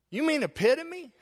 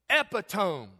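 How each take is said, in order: First: "epitome" as four syllables, e-PIT-o-me, high and incredulous; correct pronunciation. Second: "Epitome" read as three syllables, EP-i-tome; wife's mispronunciation. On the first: Preacher corrects wife's "epitome", high and disbelieving. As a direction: correct her: "epitome", stress on PIT, ending in -me. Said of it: "I said". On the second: Wife reads "Epitome" as "epi-tome", rhyming with home. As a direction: say "Epitome" like the written word, ending in tome. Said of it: "She said". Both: Retold or imitated.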